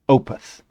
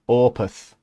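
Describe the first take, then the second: First: It is said in the speaker's usual accent. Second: It is said in a Yorkshire accent.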